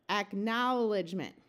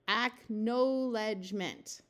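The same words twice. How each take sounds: First: The second syllable has an 'ow' vowel. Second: The second syllable has a long 'oh' vowel. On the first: The speaker calls it right. "switch from the long O sound of O W to the ow sound" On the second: The speaker calls it wrong. "that doesn't sound quite right. So let's switch from the long O sound"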